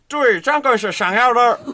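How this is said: It is said in a Beijing accent. "북경 발음은"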